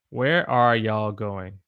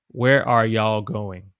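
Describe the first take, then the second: First: You all is contracted to y'all. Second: The same.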